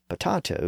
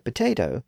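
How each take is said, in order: First: The middle vowel sounds like 'ah'. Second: The middle vowel sounds like 'ay'. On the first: This form is almost never used. "potato is rarely, if ever, heard" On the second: This form is used almost everywhere. "fully experienced the vowel shift, which is why potato is pretty much universal"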